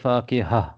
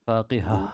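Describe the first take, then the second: The two takes are said the same way.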